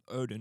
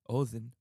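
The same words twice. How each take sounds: First: The name is said with a modern English pronunciation. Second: The name is said with an Old Norse pronunciation.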